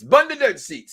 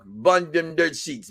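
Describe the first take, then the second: First: Put-on a light Jamaican accent, a bit higher and louder; Jamaican accent imitation. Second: Said in the usual way. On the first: Host imitating a fan's catchphrase, in a mock Jamaican accent. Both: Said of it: "There's his Jamaican accent".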